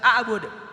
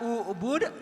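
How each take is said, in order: First: The word begins with an a vowel. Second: The word begins with a u vowel. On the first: The speaker calls it wrong. "dibaca a'bud" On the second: The speaker calls it right. "Dibaca ubud"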